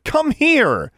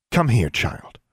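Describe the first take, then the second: First: High, loud urgent command; urgent shout. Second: Cold, controlled command; coldly. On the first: Girl calling back her raven, shouting. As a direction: yell for the bird to return. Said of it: "Alexandra shouted". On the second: Witch ordering a defiant girl over, coldly. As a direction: order the child over without warmth. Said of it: "All warmth left her voice". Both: A narrator's reading.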